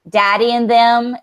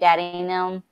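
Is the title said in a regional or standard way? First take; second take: standard; regional. First: It is said in a plain, non-local pronunciation. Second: It is said in the local regional pronunciation. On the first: "is what I said" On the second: "That's how you say it down here"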